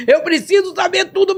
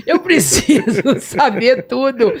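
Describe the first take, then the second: First: High, insistent Eu preciso saber tudo without laughing; urgent plea. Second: Slow, laughing through Eu preciso saber tudo; laughing plea. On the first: Begging Jesus to tell her everything, high and urgent. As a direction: press the demand up high. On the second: Begging Jesus for answers, laughing through it. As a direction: let the laugh break into the words. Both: Retold or imitated.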